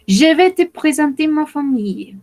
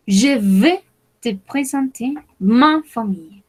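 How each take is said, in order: First: Higher model take. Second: Slow model reading. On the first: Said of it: "first take, higher". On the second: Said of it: "slower repeat". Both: Shown as a demonstration.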